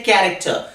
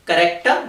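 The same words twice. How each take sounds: First: "character" stressed on the first syllable, KA-rik-ter; right way. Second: "character" with stress on the second syllable, ka-RE-cter; the mispronounced "character", stressed on RE; wrong way. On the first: Teacher models the correct "character" for students, first syllable stressed. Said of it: "we say character". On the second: Teacher shows students the wrong "character", stress on RE. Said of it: "We do not say character". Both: Shown as a demonstration.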